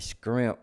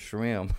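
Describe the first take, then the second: First: The word begins with an sk sound. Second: The word begins with an sh sound. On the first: "when you say scrimp instead of shrimp" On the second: "instead of shrimp"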